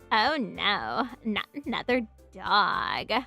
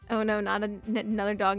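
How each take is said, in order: First: It is said in Natsuki's creaky voice. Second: It is said in her normal voice.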